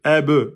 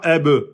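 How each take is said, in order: The two takes are said the same way.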